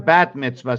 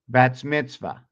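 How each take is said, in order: First: No s sound follows the word bat. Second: An s sound follows the word bat. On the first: The speaker calls it right. "it's a bat mitzvah" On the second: The speaker calls it wrong. "So I say that wrong"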